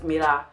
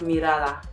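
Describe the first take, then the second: First: The word's ending is cut off. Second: The word is said in full.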